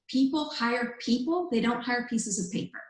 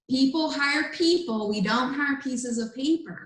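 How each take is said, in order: First: It is said at normal volume. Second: It is said louder than before.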